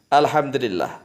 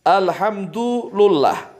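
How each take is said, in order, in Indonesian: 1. Huruf d memakai i dan huruf l memakai i. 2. Huruf d memakai u dan huruf l memakai u. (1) "dengan kasrah dalnya" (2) "bidhammid dali wal lami, dengan dhammanya dal dan lam"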